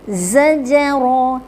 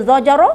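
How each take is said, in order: First: Slow zajara, thin z and heavy ra; correct zajara. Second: Zajara with a blunt z, louder; the incorrect take of zajara; wrong zajara. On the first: Teacher giving the right version after the wrong one. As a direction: draw out zajara properly. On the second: Teacher showing the mistaken version. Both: Shown as a demonstration. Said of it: "tak betul".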